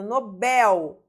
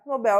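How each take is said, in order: First: "Nobel" with the final "bel" stressed; stress on last syllable. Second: Said in the usual way. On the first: Shown as a demonstration. Teacher showing students the tonic syllable, "Nobel" stressed on "bel". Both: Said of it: "última sílaba tônica".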